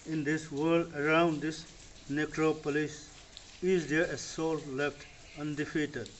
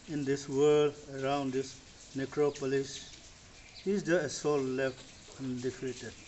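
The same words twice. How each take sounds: The two takes are said the same way.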